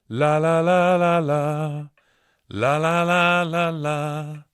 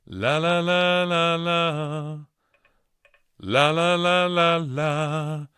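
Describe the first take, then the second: No difference in how they are said.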